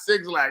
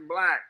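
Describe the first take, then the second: First: The name is said as two syllables. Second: The name is said as one syllable. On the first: The speaker calls it wrong. "I've heard it's not Six Lack" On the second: The speaker calls it right.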